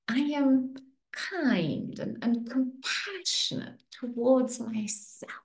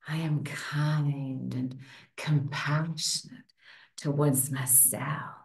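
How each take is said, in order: First: It is said in a sweet voice. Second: It is said in a sexy voice.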